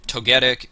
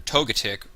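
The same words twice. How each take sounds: First: Togetic with a short "get" in the middle, toh-GET-ik; usual pronunciation of Togetic. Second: Togetic with a weak middle syllable, TOH-guh-tik; alternative pronunciation of Togetic. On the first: Streamer naming a draft pick his usual way, Togetic said toh-GET-ik. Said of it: "I've always pronounced it Togetic". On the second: Streamer offering viewers the other option, Togetic said TOH-guh-tik. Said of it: "however you wanna pronounce it". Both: Shown as a demonstration.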